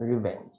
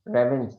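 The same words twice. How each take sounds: First: রিভেঞ্জ with "ri", soft; রিভেঞ্জ, "ri" as in river; correct pronunciation. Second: রেভেঞ্জ with an open "re-"; রেভেঞ্জ, "re" as in red; wrong pronunciation. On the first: Teacher settles on the right রিভেঞ্জ, quietly. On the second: Teacher contrasts the wrong রেভেঞ্জ for the class. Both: Shown as a demonstration. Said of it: "রেভেঞ্জ না".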